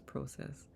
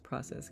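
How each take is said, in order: First: It is said with a Canadian pronunciation. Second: It is said with a general American pronunciation. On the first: "Canada says process" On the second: "Most of most of the U S says process"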